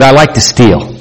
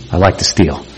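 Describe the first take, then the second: First: Said in the usual way. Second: Soft, low repeat of "I like to steal."; quiet confession. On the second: Retold or imitated. Troubled youth quietly repeating "I like to steal.". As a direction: let "I like to steal." drop low and hushed. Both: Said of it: "He said".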